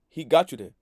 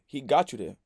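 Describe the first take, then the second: First: Louder, leaning on "got"; emphatic repeat. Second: Said in the usual way. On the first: Shown as a demonstration. Telling her friend she got played, hitting "got" loudly. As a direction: punch "got" hard to drive the point home. Repeating his point more forcefully.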